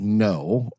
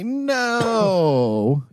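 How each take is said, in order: First: It is said plainly, without emphasis. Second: It is said with strong, meaningful emphasis.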